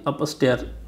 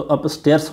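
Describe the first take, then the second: First: "अपस्टेयर" ending on r, no s; singular without final s. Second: "अपस्टेयर्स" with an s after the r; plural with final s. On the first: Teacher dismissing the wrong form, final s missing. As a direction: say "अपस्टेयर" with the s left off. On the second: Teacher giving the correct form, final s sounded. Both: Shown as a demonstration. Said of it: "ना कि अपस्टेयर".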